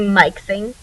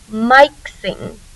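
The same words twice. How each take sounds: First: The first vowel is short, like in it. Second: The first vowel is long, like eye. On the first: The speaker calls it right. "It has a short vowel sound" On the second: The speaker calls it wrong. "that magic letter that makes the first vowel say its name. So this word should say mixing"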